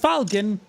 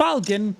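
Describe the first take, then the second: First: The name sounds like the word falcon. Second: The name sounds like the word falcon.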